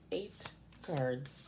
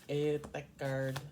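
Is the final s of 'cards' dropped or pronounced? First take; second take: pronounced; dropped. First: The final s sound of cards is pronounced. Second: The final s sound of cards is dropped. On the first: The speaker calls it right. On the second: The speaker calls it wrong.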